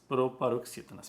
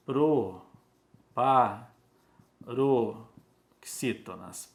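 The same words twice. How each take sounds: First: Said in the usual way. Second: PROPAROXÍTONAS in separate, stretched syllables; very slow "proparoxítonas", pausing between syllables; slow dictation. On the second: Shown as a demonstration. Teacher writing the term for the class, slow dictation.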